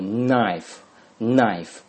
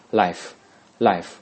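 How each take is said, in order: First: Knife with a nasal start, said slowly; careful "knife", k silent; teacher contrasting "knife" with "life"; model pronunciation. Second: Life with a clear lateral L, slow; careful "life" twice; teacher contrasting "life" with "knife"; model pronunciation. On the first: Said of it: "小刀的它前面是鼻音". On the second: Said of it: "这个是边音啊". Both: Shown as a demonstration.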